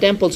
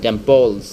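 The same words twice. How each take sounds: First: The word ends with an s sound. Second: The word ends with a z sound. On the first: The speaker calls it wrong. "এটা টেম্পলস হবে না" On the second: The speaker calls it right. "সেটা হবে জ উচ্চারণ করতে হবে"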